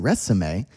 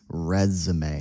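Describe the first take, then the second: First: The middle consonant is a hissing S sound. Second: The middle consonant is a buzzing Z sound. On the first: The speaker calls it wrong. "I don't say resume" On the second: The speaker calls it right. "I say his resume. So these are like Z sounds"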